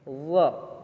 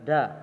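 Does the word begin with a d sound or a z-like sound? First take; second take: z sound; d sound. First: It begins with a z-like sound. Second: It begins with a plain d sound. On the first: The speaker calls it right. "harusnya zo ya" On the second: The speaker calls it wrong. "bukan da ya, salah"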